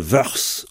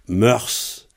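First: The word begins with a V sound. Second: The word begins with an M sound. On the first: "Comme planeden est féminin, il y en a qui vont dire Erblaneden, vœurs" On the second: "Alors on peut dire Erblaneden, mœurs"

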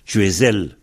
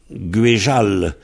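First: The middle consonant is a clear z sound. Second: The middle consonant is a zh sound. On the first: This is the local form in one region. "On prononce bien le Z" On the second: This is the local form in another region. "le Z est devenu Je"

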